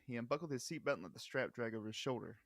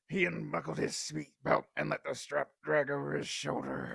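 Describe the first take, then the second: First: It is read in a normal voice. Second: It is read in a put-on voice.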